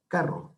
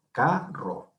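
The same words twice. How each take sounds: First: Said in the usual way. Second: "carro" partido en "ca... rro", con peso en "ca"; sílaba tónica separada. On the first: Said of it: "la penúltima sílaba". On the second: Shown as a demonstration. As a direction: separa las dos sílabas de "carro" marcando "ca". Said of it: "lleva la mayor fuerza de voz". ("carro" silabeado, con fuerza en la primera sílaba)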